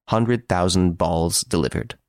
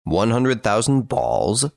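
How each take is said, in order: First: Slow, even telegram read-out. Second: Slow, rising disbelief on "thousand"; incredulous question. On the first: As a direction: spell out the message word by word, slowly. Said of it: "It read as follows". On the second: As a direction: slowly repeat it back in disbelief. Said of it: "said Ganimard". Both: A narrator's reading.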